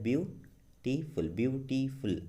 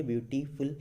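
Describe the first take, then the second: First: beautiful slowly split into three beats, ब्यू-टी-फुल; syllable by syllable. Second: beautiful run together more quickly. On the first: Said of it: "ये तीन बार में बोला है". (Beautiful को तीन हिस्सों में तोड़कर धीरे बोलें) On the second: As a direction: say beautiful in one quicker go, syllables still audible. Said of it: "ऐसे भी जल्दी बोलिए". (ब्यूटीफुल को जल्दी से एक साथ बोलें) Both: Shown as a demonstration.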